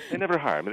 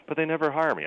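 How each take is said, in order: First: High, loud imitation of an Italian accent; hammed-up Italian accent, stress on never. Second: High, loud imitation of an Italian accent; mock Italian accent, pitched up. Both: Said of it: "he has a really thick Italian accent".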